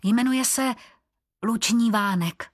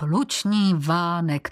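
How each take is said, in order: First: Higher, gentle introduction of the horse's name; tender pride in the horse's name; soft and tender. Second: Slow, drawn-out scornful repeat of "Luční vánek"; a teasing sneer at a girl's horse name; mocking eye-roll. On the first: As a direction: say the name fondly, like presenting a friend. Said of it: "měkce dodala". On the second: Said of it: "obrátil oči v sloup". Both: A narrator's reading.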